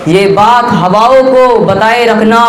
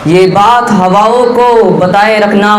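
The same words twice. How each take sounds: The two takes are said the same way.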